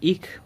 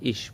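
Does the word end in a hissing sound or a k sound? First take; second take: k sound; hissing. First: The word ends with a hard k sound. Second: The word ends with a soft hissing sound. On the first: "অনেকে ইক বলে" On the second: "আবার অনেকে ইস বলে"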